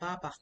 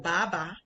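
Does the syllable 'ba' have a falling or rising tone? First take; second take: falling; rising. First: The tone falls sharply on each syllable. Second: The tone rises on each syllable. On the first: It means father. The speaker calls it right. "Baba is the fourth tone down" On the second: It means to pull. The speaker calls it wrong. "to pull means ba, which is the second tone"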